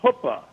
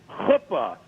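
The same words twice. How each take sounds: First: It begins with a plain English 'ch' sound. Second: It begins with a harsh sound from the throat. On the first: The speaker calls it wrong. "not chuppah" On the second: The speaker calls it right. "it's chuppah"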